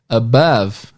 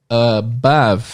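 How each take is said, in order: No difference in how they are said.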